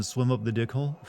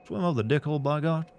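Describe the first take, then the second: First: Said in the usual way. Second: Southern accent. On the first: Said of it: "what you're asking me to say again". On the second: Shown as a demonstration. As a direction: say it with a Southern twang. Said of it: "but with a southern accent?".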